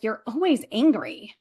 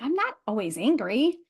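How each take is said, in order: First: Imitating a husband's complaint, stress on "always"; mildly accusing, falling at the end; retold reproach with swooping pitch; husband's accusation. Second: Indignant denial with stress on "not"; swooping pitch, rising at the end; mock-defensive retort to an accusation; retold protest. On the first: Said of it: "he's like". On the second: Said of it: "And I'm like".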